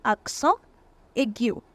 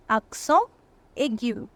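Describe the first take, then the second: No difference in how they are said.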